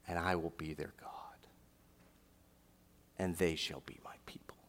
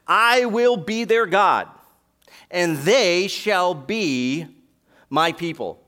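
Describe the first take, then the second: First: Hushed whisper. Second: Much louder and higher, drawn out slowly; slow, ringing proclamation. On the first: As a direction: let the promise fall to a whisper. Climax after shouted verse. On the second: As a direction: proclaim each word like a herald. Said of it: "Now that last". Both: Acted.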